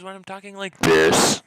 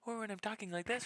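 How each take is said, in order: First: High, then dropping to a booming last word; loud mic test. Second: High voice, held back in volume; high-pitched mic test. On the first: Streamer comparing mic levels for the chat, suddenly loud. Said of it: "versus when I'm talking like this". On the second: Streamer comparing mic levels for the chat, high voice. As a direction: pitch it up high for a sound check. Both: Shown as a demonstration.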